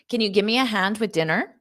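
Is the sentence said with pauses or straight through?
straight through. The sentence runs quickly without any pauses. "So I'll say it one more time fast"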